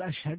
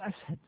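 First: The middle consonant is pronounced sh. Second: The middle consonant is pronounced s. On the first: "ما يقول أشهد" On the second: "إذا ما ينطق الشين ينطقها سينا، يقول أسهد"

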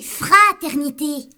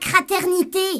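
First: The word begins with an f sound. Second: The word begins with a k sound. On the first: The speaker calls it right. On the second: The speaker calls it wrong. "Pas craternité"

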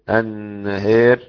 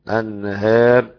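First: The long a is strongly shifted toward e. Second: The long a is slightly shifted toward e. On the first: "الإمالة في النهار" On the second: "والأزرق قلل"

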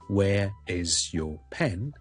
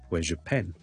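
First: Each word is said separately and in full. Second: The z sound runs straight into 'your'. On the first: The speaker calls it wrong. "咁就唔需要读成咧" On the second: The speaker calls it right. "咁听落去咧就省时快捷，听落去自然"

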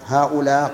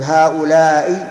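First: The word ends in a short open vowel. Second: The word ends in a long vowel and glottal stop. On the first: The speaker calls it wrong. "مقصورة" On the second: The speaker calls it right. "هذه ممدودة"

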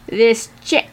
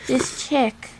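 First: It is said in a plain, normal voice. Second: It is said in a light, airy voice. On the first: The speaker calls it wrong. "She wouldn't have said it like that" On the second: The speaker calls it right. "in her airy voice"

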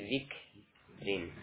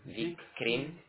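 First: The k ends with a breath before the r. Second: The k sound is carried over onto the r. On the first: The speaker calls it right. "Tapi zik rin. ... kaf harus diberikan hamas" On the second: The speaker calls it wrong. "Bukan zik krin"

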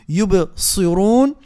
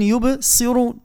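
First: The ص keeps a heavy, emphatic quality. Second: The ص is thinned into a light س. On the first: The speaker calls it right. "فرق ما بين صا ما بين ساء" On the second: The speaker calls it wrong. "فرق ما بين صا ما بين ساء"

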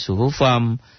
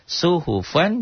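First: The word ends with an m sound. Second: The word ends with an n sound.

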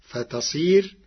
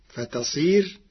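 The two takes are said the same way.

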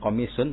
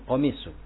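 First: The word ends with an added n sound. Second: The word ends on a bare vowel. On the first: The speaker calls it wrong. "bukan komisun" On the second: The speaker calls it right. "tapi komisu"

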